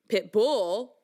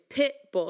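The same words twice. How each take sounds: First: The stress is on the second syllable. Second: The stress is on the first syllable. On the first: The speaker calls it wrong. "It's not pit bull, right? That sounds weird" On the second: The speaker calls it right. "It's pit bull. So the accent is on pit first"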